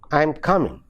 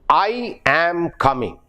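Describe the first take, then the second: First: I am is contracted to a weak form. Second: I am is said in full and strongly. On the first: The speaker calls it right. "it should be I'm coming" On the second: The speaker calls it wrong. "I am coming is the Malayali pronunciation"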